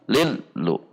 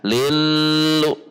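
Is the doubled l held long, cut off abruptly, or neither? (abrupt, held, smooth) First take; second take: abrupt; held. First: The doubled l is cut off abruptly. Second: The doubled l is held long. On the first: "yang dihentak" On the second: "Yang ditahan"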